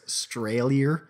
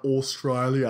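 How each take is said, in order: First: "Australia" with the first syllable swallowed, like "Straya"; clipped Aussie pronunciation. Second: "Australia" with its first syllable fully sounded; full pronunciation. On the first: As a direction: slowly drawl "Australia" as "Stray-lia". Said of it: "Australian people don't say they're from Australia". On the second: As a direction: say all of "Australia", opening syllable included. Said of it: "don't say they're from Australia". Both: Shown as a demonstration.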